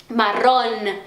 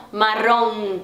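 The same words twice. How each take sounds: First: Marrón ending in a clear, held n; pronounced final n. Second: Marrom ending in a nasal hum, no n; Portuguese nasal ending. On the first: Teacher showing learners Spanish marrón, clear final n. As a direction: say marrón with tongue touching for the final n. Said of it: "ela geralmente é pronunciada". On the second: Teacher showing learners what to avoid, nasal marrom. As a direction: say marrom with a nasalised final vowel. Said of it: "esse som meio nasalado português". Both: Shown as a demonstration.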